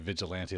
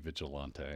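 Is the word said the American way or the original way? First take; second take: American; original. First: It is said with the everyday American pronunciation. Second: It is said with a more original, non-American pronunciation. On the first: It names a type of person. "here in America, like we say Vigilante, like that's a type of person" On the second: It names the company. "if you're trying to pronounce the word as it's normally used"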